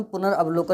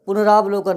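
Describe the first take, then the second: First: पुनर्वलोकन as pu-nar-av-lo-kan; short a. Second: पुनरावलोकन with long "raa"; wrong long vowel. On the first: Teacher giving the right form, short-vowel पुनर्वलोकन. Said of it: "बिल्कुल सही होता है". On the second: Teacher showing the wrong form, long-vowel पुनरावलोकन. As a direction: say पुनरावलोकन as pu-na-raav-lo-kan. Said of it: "वो गलत होता है". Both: Shown as a demonstration.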